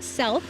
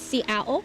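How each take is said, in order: First: The name is said with a 'th' sound. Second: The name is said without a 'th' sound. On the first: The speaker calls it wrong. "So it's not self, like a lot of people think" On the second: The speaker calls it right. "actually the correct pronunciation is Seattle"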